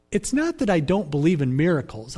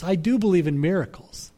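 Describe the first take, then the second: First: "not" leaned on with a falling tune; stress on not. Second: "do" leaned on firmly; stress on do. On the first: Preacher to congregation, stressing "not". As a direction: push the word "not" to deny any doubt. Preacher denies doubting miracles. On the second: Preacher to congregation, firm stress on "do". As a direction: land hard on "do" to affirm belief. Preacher affirms belief in miracles. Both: Real, not acted.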